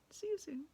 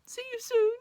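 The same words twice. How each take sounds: First: Subdued, understated goodbye; polite farewell. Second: Very high, loud wailed goodbye; hammed-up weepy send-off; tearful farewell call. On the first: Acted. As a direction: say it back quietly with a wave. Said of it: "turned around and waved and said". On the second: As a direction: call it after him, close to sobbing. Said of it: "she said".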